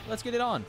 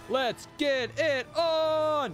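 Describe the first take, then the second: First: It is said flatly with little energy. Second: It is shouted with big wrestling-announcer energy.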